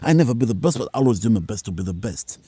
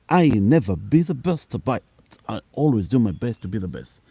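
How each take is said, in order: First: It is said at a fast pace. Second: It is said at a normal pace.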